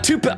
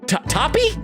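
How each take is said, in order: First: The name sounds like 'toupee'. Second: The name sounds like 'toppy'. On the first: "I don't know why I said Toupee before. I misread that" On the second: "it's not Toupee. It's it's uh, Toppy"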